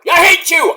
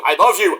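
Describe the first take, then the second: First: High, loud mock snarl; mock angry. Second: Said in the usual way. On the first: Tag partner yelling at the other, high and loud. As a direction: spit it out like a bickering partner. Alternating hate and love.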